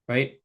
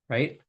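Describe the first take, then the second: No difference in how they are said.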